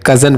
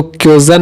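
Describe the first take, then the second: First: कज़न with no y-glide after the k; correct pronunciation. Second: क्यूजन with a y-glide after the k; wrong pronunciation. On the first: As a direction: say कज़न with a short "kuh" start, KUH-zan. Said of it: "कज़न पढ़ना है". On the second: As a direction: say क्यूजन with a "kyo" start, KYO-zan. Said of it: "क्यूजन नहीं पढ़ना है". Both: Shown as a demonstration.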